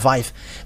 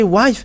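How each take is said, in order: First: The word begins with a V sound. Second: The word begins with a W sound. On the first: "they really pronounce it as V, not W" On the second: "But if you say wife"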